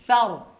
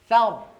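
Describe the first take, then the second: No difference in how they are said.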